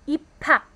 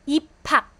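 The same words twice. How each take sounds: The two takes are said the same way.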